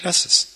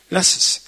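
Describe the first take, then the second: First: Said in the usual way. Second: A hushed, pressing repeat; whispered appeal. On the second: Acted. Preacher urging the congregation to drop demands, whispered. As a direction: whisper it, breathy and urgent.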